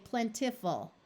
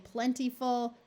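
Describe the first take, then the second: First: "plentiful" with a short i in the middle, plen-ti-ful; short I variant. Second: "plentiful" with the middle vowel as long E, plen-tee-ful; long E variant. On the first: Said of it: "or you may hear them say plentiful". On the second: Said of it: "you may hear people say plentiful". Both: Shown as a demonstration.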